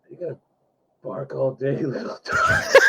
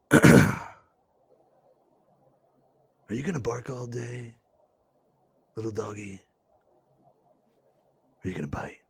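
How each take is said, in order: First: Menacing line collapsing into laughter; breaking into laughter. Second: Low, soft, shady gangster threat; shady gangster taunt. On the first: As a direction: try the threat and crack up. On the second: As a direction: bring in the shadiness, quiet and low. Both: Shown as a demonstration. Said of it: "say it like this".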